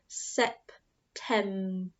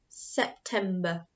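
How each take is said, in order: First: The word is said more slowly. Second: The word is said at a normal speed.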